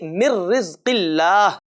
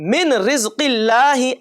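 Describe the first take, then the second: First: The n merges into a doubled r. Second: The n is clearly pronounced before the r. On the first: The speaker calls it right. "बल्कि" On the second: The speaker calls it wrong. "ऐसा नहीं"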